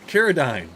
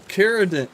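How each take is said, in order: Both takes have the same delivery.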